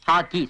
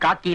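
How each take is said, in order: First: The word begins with an h sound. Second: The word begins with a k sound. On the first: The speaker calls it right. "ஹாக்கி. சொல்லு" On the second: The speaker calls it wrong. "அது காக்கி இல்ல"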